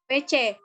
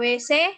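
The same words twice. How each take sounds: First: The letter C is said as ce. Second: The letter C is said as se. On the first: The speaker calls it right. "W C itu benar" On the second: The speaker calls it wrong. "fenom C diucapkan menjadi S E ... W C itu salah"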